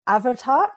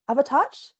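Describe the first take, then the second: First: Avatark said with a hard k at the end, rising like a question; Avatark, unsure, ending on a question; tentative pronunciation. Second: Avatarch, questioning and unsure; second pronunciation guess. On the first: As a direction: try Avatark as a hesitant guess. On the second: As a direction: offer Avatarch as another nervous guess. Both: Shown as a demonstration. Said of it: "help me with this pronunciation".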